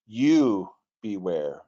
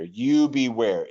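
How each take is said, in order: First: Slow "You beware" with "You" held and weighted; stress on you. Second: "You" pushed out slow and firm before beware; stress on you. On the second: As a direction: lean hard on "You" in "You beware". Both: Shown as a demonstration.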